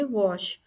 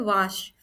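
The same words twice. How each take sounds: First: वॉश with a rounded "aw" vowel; correct pronunciation. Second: वाश with a long open "aa" vowel; wrong pronunciation. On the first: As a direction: say वॉश to rhyme with "posh". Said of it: "इसे हम बोलेंगे वॉश". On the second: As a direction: say वाश with "aa" as in "father". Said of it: "जो कि wrong है". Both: Shown as a demonstration.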